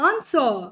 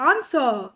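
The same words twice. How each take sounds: The two takes are said the same way.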